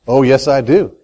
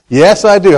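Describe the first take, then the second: First: Low, understated insistence; assured answer. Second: Emphatic insistence. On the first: Answering his own rhetorical question. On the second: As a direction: insist on it more firmly. Repeats his answer more firmly. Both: Real, not acted.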